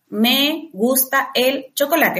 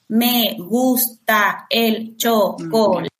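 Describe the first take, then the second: First: It is said with breaks between words. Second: It is said with breaks between syllables.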